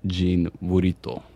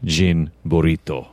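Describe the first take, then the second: First: Jean Burrito said slowly as a model; dictionary pronunciation. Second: Jean Burrito repeated lower and slower. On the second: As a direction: echo Jean Burrito deep and slow. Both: Shown as a demonstration. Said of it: "Syllable by syllable".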